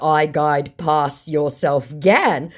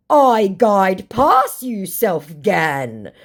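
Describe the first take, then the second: First: Said in the usual way. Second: Slow, raised, emphatic impression; mock indignant scammer. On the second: Scammer hitting back at the baiter, mock indignant. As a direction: drag out the retort in a put-on voice. Acting scammer's pidgin retort.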